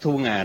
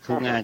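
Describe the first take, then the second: First: The second syllable has a low falling tone. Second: The second syllable has a level tone. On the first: The speaker calls it wrong. "Bây giờ mình không thể nói Thu Nga được" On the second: The speaker calls it right. "phải Thu Nga cho nó rõ ràng"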